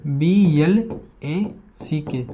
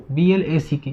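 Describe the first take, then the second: First: बी एल ए सी के spelled out letter by letter, very slowly; slow spelling. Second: Said in the usual way. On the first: Shown as a demonstration. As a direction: dictate each letter slowly to the class. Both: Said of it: "तो इसे ऐसे लिखते हैं".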